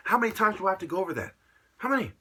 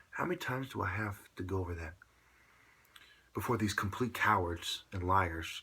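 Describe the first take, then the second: First: Fast, loud and high, exasperated; angry shout. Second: Calmly polite restatement; nice, polite. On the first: Real, not acted. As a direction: fire it off in a furious rant. Ranting, repeating himself angrily. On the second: Shown as a demonstration. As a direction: say it nicely so they understand. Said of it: "I'm saying it in a nice, polite way".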